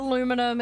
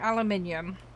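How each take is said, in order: First: The word is said the American way. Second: The word is said the British way. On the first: "Americans call it aluminum" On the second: "in the U K we call it aluminium"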